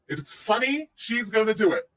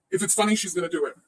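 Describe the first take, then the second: First: "funny" lifted and rising, then "she's gonna do it" driven down; emphatic repeat. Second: Said in the usual way. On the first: Real, not acted. Streamer repeats the rival's own excuse, pointedly stressing "funny". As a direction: lean on "funny", hold it up, then land "gonna do it".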